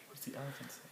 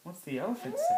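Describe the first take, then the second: First: Soft question. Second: Put-on high, bright rising question to a baby; playful high question. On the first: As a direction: ask it gently and softly. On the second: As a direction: lift it up playfully at the end. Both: Shown as a demonstration.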